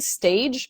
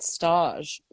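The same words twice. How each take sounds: First: It is said like the ordinary English word. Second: It is said with a French-sounding pronunciation. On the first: "It's like saying stage" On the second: "but stage"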